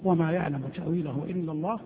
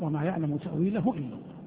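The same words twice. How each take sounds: First: The voice runs on without stopping after it. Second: The voice stops fully after the last word. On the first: Those firm in knowledge also know its interpretation. "بالوصل" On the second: Only God knows its interpretation. "قراءة الوقف"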